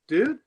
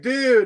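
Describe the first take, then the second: First: It sounds concerned, like asking if someone is okay. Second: It sounds happy, with a laughing quality. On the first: The speaker is checking whether the other person is all right. "asking if you're okay, kind of dude" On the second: The speaker finds the mishap funny. "a happy, kind of laughing dude"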